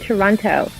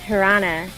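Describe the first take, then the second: First: Every syllable is said in full. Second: The word is reduced, dropping the middle 't'. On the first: The locals do not say it this way. "They don't say Toronto" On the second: This is how the locals say it. "They say"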